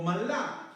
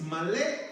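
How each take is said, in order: First: "malá" stressed on the final á, pitched higher. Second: "malé" stressed on the final é. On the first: Preacher offering the congregation the other reading, final-A stress on "malá". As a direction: lift "malá" on its last vowel A. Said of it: "acento en la A". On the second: Preacher teaching the congregation an original word, final-E stress on "malé". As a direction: say "malé", landing on the last vowel E. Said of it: "con acento en la E". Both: Shown as a demonstration.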